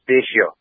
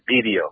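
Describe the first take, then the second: First: The middle consonant is an S-like sound. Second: The middle consonant is a D sound. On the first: This is how the name is really pronounced. The speaker calls it right. "the name of that is actually pronounced Baisio" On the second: This is how most people commonly say it. The speaker calls it wrong. "Everybody calls it BDO"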